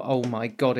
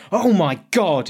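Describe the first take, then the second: First: Said in the usual way. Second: Retold gasp. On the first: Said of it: "just to yell". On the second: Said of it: "just froze and stopped and went".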